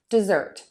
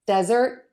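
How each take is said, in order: First: "dessert" stressed de-ZERT with a fall; weight on the end of "dessert", let it drop; stress on second syllable. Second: "desert" stressed DEZ-ert with a rise; weight on the start of "desert", lift the end; stress on first syllable. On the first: Teacher repeats the pair, second syllable of "dessert" stressed. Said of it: "zert is going to be the longer vowel". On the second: Teacher repeats the pair, first syllable of "desert" stressed. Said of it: "That vowel is a little bit longer in desert". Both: Shown as a demonstration.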